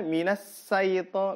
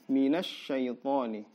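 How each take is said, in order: First: The consonant after 'mina' is a plain s sound. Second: The consonant after 'mina' is a sh sound. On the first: The speaker calls it wrong. "Shin tertukar jadi sin" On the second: The speaker calls it right. "padahal ini adalah shin"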